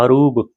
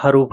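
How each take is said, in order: First: The word ends with a b sound. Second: The word ends with an f sound. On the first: The speaker calls it right. "हरूफ से ब से है" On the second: The speaker calls it wrong. "बोलने में बहुत से लोग गलती करते हैं"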